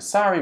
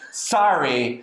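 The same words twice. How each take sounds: First: It is said softly and sympathetically. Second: It is said slowly and sarcastically.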